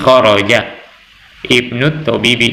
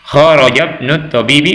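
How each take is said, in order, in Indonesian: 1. Ada jeda sebelum ibnu, dan i-nya dibaca. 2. Dibaca langsung tanpa jeda, dengan i pada ibnu dihilangkan. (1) "ketika kita memutus putus cara pembacaan kita ... itu boleh kita sebut i-nya" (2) "ketika kita langsung"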